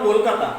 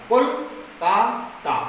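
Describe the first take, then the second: First: Said in the usual way. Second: কলকাতা broken into syllables, very slow: kol-ka-ta; split into syllables. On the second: Shown as a demonstration. Teacher to class, showing syllables: কলকাতা drawn out slowly syllable by syllable. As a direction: spell out কলকাতা one syllable at a time, very slowly. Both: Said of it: "যেভাবে বলছি সেইভাবে লেখা হবে".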